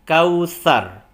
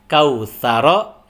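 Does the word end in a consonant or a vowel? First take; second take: consonant; vowel. First: The word ends on a bare r consonant. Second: The word ends with a short vowel after r. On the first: The reading stops at the end of the verse. "jika berhenti kautsar" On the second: The reading continues into the next verse. "Jika lanjut, hidup kembali ro-nya"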